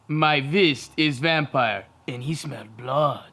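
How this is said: It is said in a put-on vampire voice.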